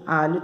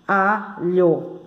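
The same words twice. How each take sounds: First: Said in the usual way. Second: ALHO split into two syllables. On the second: Shown as a demonstration. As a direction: pause between the halves of "alho". ("alho" separado em duas sílabas) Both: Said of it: "alho tem duas sílabas".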